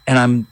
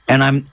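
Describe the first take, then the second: No difference in how they are said.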